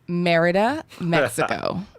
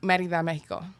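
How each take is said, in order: First: It is said with an American gringo accent. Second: It is said with a Spanish-style accent.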